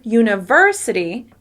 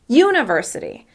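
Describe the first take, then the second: First: The stress is on the second syllable. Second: The stress is on the first syllable. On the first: The speaker calls it right. "when I stress the syllable ver" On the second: The speaker calls it wrong. "with stress on the first syllable"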